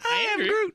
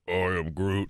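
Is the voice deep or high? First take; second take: high; deep. First: It is said in a high, childlike voice. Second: It is said in a very deep voice.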